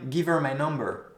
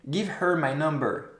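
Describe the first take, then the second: First: The h in 'her' is dropped and linked. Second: The h in 'her' is clearly pronounced. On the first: The speaker calls it right. "quelque chose qui doit être un petit peu plus léger ... je vais plutôt dire" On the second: The speaker calls it wrong. "si je le dis comme ça, regardez ... C'est un petit peu bizarre ... vous n'êtes pas obligé de faire le H aspiré"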